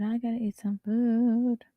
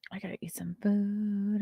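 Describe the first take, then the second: First: Said aloud, slowly drawn out; slow normal voice. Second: Whispered under breath. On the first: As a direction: say it aloud, unhurried. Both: Shown as a demonstration.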